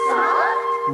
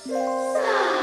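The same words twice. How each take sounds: First: It is said fairly loudly. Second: It is said much more softly.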